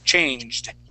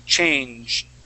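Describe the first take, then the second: The two takes are said the same way.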